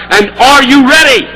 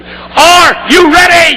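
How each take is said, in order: First: Said in the usual way. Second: High, loud, slow rallying shout; stirring the assembly, loud; shouted again, stronger. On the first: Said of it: "That was rather weak". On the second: Shown as a demonstration. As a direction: rouse the room with it. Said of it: "Let me try that again".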